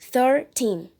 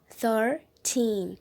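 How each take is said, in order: First: The stress is on the first syllable. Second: The stress is on the second syllable. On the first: It can be mistaken for thirty. The speaker calls it wrong. "se você coloca a sua força para falar assim, thirteen, ele pode se confundir com o número trinta" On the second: It clearly marks the number thirteen. The speaker calls it right. "você coloca sua força na palavra teen"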